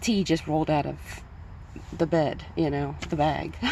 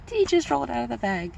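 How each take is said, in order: First: Said in the usual way. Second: Higher and louder, giggling through the words; laughing at own pun. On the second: Real, not acted. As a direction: crack yourself up as you repeat the pun. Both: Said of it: "Get it?".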